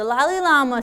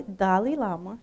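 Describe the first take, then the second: First: Dalai Lama slipped as "Lali Lama"; slipped pronunciation. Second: Dalai Lama corrected to open with D; softer, lower "Dalai Lama" with a clear D start; corrected pronunciation. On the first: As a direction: start "Dalai" with an L by mistake, like "Lali". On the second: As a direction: fix the slip, saying "Dalai" as "DAH-lee". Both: Real, not acted. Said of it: "you gotta forgive my accent".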